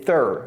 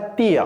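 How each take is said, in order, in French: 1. Elle commence par un TH doux. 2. Elle commence par un T dur simple. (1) "c'est thir" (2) "c'est pas tir"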